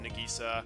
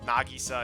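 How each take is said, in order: First: It is said with an English-style pronunciation. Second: It is said with a Japanese pronunciation. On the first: "instead of" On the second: "trying to do the Japanese pronunciation"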